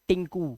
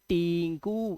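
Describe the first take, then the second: First: The first vowel is kept short. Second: The first vowel is drawn out long. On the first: The speaker calls it right. "इसे पढ़ते हैं टिंकू। टिंग time कम है" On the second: The speaker calls it wrong. "ऐसे नहीं पढ़ेंगे"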